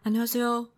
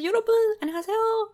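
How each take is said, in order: First: It is said timidly and quietly. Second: It is said in a very excited tone.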